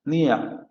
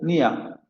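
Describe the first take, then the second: The two takes are said the same way.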